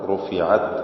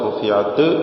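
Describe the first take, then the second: First: The final t stops cleanly without bounce. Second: The final t ends with an echoing bounce. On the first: The speaker calls it right. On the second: The speaker calls it wrong.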